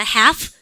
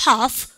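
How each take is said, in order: First: "half" with a nasal front "a"; American-style "half", as "haef"; American nasal vowel. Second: "half" with a long back "ah"; British-style "half", as "hahf"; British pronunciation. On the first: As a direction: say "half" through the nose, rising. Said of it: "완전 비음 가깝죠". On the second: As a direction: say "half" with a broad open A. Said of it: "영국 애들은". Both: Shown as a demonstration.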